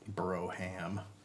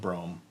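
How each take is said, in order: First: The word is said with two syllables. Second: The word is said with one syllable.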